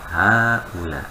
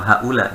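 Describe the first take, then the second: First: The first vowel 'ha' is held long. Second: The first vowel 'ha' is clipped short. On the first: The speaker calls it right. "Haknya panjangin dikit" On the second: The speaker calls it wrong. "jangan langsung haula"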